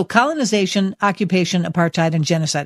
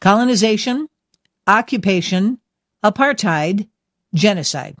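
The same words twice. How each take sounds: First: Said in the usual way. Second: Each word set apart by pauses; said slowly. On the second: Shown as a demonstration. Host presenting four key words to listeners, slowly and separately. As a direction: say them slowly, one by one, like a list. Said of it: "I'm gonna say them slowly".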